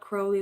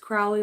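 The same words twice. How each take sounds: First: The first syllable rhymes with row. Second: The first syllable rhymes with cow. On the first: The speaker calls it wrong. "not Crowley like Foley" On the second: The speaker calls it right. "It's Crowley like Howley"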